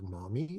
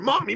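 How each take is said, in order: First: It is said in a tiny, quiet voice. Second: It is said in a loud, excited voice.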